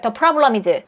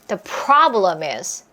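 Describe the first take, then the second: First: It is said flatly without a strong beat. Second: The 'pro' is punched out strongly and long.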